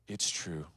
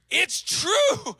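First: It is said flatly, without excitement. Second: It is said excitedly, with strong emphasis.

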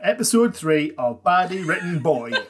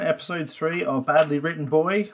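First: It is said in a put-on Geordie accent. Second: It is said in the speaker's plain accent.

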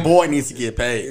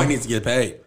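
First: It is said loudly and forcefully, with conviction. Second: It is said in a plain, ordinary voice.

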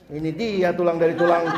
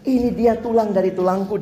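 First: It is said in an angry, annoyed tone. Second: It is said in an amazed, delighted tone.

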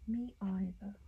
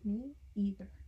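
First: It is said in a put-on London accent. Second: It is said in a plain American accent.

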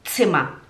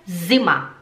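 First: The word does not begin with a z sound. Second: The word begins with a plain z sound. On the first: The speaker calls it right. "é zima" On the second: The speaker calls it wrong. "porque zima se escreve com Z, mas no alemão não é zima"

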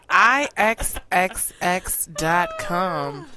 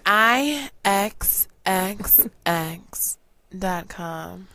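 First: It is said in a normal voice. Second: It is said in a sultry put-on voice.

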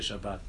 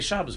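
First: The word ends with a t sound. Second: The word ends with an s sound. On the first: "We don't say Shabbat" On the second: "We have a Kabbalah that we say Shabbos"

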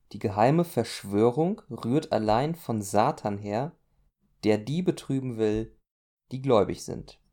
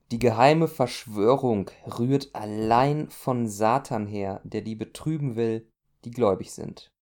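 The two takes are said the same way.

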